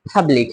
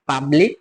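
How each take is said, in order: First: The first p has a strong puff of air. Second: The first p is plain, without a puff of air. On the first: The speaker calls it right. "বলবো" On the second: The speaker calls it wrong. "না বলে"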